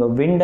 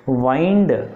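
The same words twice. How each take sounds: First: విండ్ with a short i; విండ్ rhyming with pinned; moving-air pronunciation. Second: వైండ్ with a long eye sound; వైండ్ rhyming with find; winding pronunciation. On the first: Teacher contrasts the air meaning, విండ్ with short i. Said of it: "అని పలికితేనేమో గాలి". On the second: Teacher contrasts the round meaning, వైండ్ rhyming with find. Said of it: "అని పలికితేనేమో round". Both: Shown as a demonstration.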